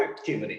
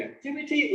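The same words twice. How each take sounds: First: Activity with the last T tapped like a soft R. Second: Activity with a clear T before the final Y. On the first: Teacher leaves the choice to students, tapped T. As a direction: say activity with an American flapped T. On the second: Teacher leaves the choice to students, clear T. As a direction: say activity with a full final T sound. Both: Shown as a demonstration. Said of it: "It's up to you guys".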